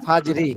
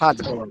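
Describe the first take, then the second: First: The word ends with a short 'i' vowel. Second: The word ends on a bare 'r' consonant. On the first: It is joined to the next word. "যখন আমরা একসাথে যদি মাকিয়ার সাথে যদি আমরা মিলাই পড়ি সেই ক্ষেত্রে" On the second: The reader stops after this word. "তাছাড়া"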